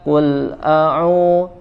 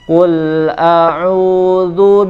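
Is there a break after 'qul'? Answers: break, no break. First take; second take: break; no break. First: The sound stops abruptly with a break after qul. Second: The l flows smoothly into the next word. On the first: The speaker calls it wrong. "tidak boleh langsung qul a'u qul a'u, tidak boleh jeda di situ" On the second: The speaker calls it right. "dia harus mengalir ya"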